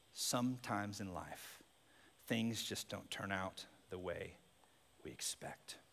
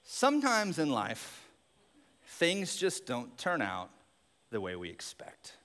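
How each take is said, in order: First: Much softer and lower, fading to a whisper; near whisper. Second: Slow, measured and thoughtful; slow reflective line. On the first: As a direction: hush it down to a whisper. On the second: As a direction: let each phrase land slowly. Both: Shown as a demonstration.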